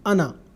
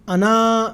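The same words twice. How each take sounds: First: The final vowel is short. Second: The final vowel is long. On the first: The speaker calls it right. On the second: The speaker calls it wrong.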